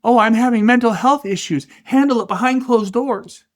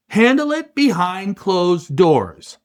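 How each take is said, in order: First: High, whiny mock of a complainer. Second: Firm, slow "handle it behind closed doors"; stern order. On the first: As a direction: whine it out like a mockery. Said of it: "He even did the little voice ... the mocking, whiny voice". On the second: Retold or imitated. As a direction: lay it down like a hard command. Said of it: "Dana looks at the mess and says".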